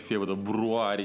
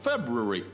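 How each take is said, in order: First: The word is sounded out exactly as written. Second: The word is said in a smoothed, reduced form. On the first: The speaker calls it wrong. "просто читать, так говорить, Фебруари неудобно" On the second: The speaker calls it right. "поэтому просто February"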